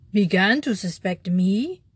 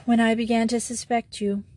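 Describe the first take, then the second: First: Outlaw echoing the priest's words, pressing harder; increased intensity. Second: Said in the usual way. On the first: Acted. Stunned outlaw presses the priest, with rising intensity. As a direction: lean in, more urgent. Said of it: "repeated the outlaw with increased intensity". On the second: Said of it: "repeated the outlaw".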